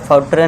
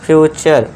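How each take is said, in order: First: The middle consonant is a plain t sound. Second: The middle consonant is a ch sound. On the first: The speaker calls it wrong. "फौटरे नहीं" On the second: The speaker calls it right.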